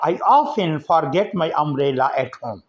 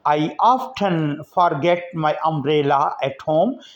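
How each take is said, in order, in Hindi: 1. t की आवाज़ silent है। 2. t की आवाज़ बोली जाती है।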